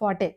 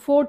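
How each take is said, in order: First: It is said as two syllables, 'for-tay'. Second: It is said as one syllable, 'fort'. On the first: The speaker calls it right. "ఫోర్ట్ కాదు, అది ఫాటే" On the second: The speaker calls it wrong. "మనం ఫోర్ట్ అంటాం"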